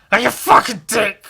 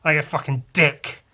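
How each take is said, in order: First: Louder, higher mock outrage; shouting about getting nothing back; indignant yell. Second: Said in the usual way. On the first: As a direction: bellow it like a wronged man. Repeats line, second time yelled.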